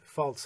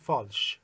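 First: It is said the English way. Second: It is said the Persian way, from French. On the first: This is the form used in English. "ولی فالس هست در انگلیسی" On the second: This is the form used in Persian. "ما تو فارسی چون معمولا از فرانسوی گرفتیم میگیم false"

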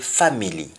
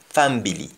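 First: It is said in a standard English accent. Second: It is said in a Jamaican accent. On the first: "in English we say family" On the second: "in Jamaican the word family is pronounced as family"

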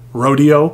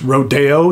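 First: The word is pronounced the English way. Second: The word is pronounced the Spanish way. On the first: The speaker calls it wrong. "not Rodeo" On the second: The speaker calls it right. "uses the Spanish pronunciation, so it's Rodeo"

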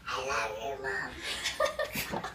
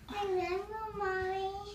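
First: It is said in a monster voice. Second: It is said in a normal voice.

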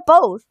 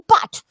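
First: The final t sound is dropped. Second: The final t sound is clearly pronounced. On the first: "它读成bow 啊，就是一个bow 就行了。boat 它没有t 啊" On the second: "它不读but"

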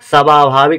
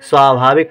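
First: The word begins with a full separate 'sa' syllable. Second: The word begins with a short 'sva' cluster. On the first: The speaker calls it wrong. "स्वाभाविक नहीं पढ़ा जा रहा है" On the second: The speaker calls it right. "स्वाभाविक पढ़ा जा रहा है"

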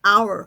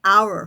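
No difference in how they are said.

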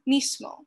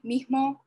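First: The s sound is fully and strongly pronounced. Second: The s sound is weakened to an h-like breath. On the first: "with a strong S sound" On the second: "the reduced"

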